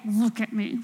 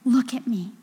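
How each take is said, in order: First: It is said angrily through clenched teeth. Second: It is said earnestly, as something important.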